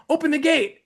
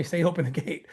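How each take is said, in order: First: Higher, pressing call to open the gate; urgent demand. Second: Softer, lower prompting of open the gate; quiet inner voice. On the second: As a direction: hear it as a soft inner prompting. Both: Retold or imitated. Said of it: "the Holy Ghost was telling me".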